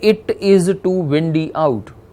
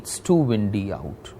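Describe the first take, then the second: First: The words 'it is' are said in full. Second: The words 'it is' are contracted to 'it's'. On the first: The speaker sounds like a non-native speaker. The speaker calls it wrong. "instead of saying this in this way" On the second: The speaker sounds fluent and natural. The speaker calls it right. "the contractions, they make a very good impression"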